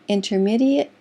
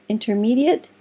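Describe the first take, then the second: The two takes are said the same way.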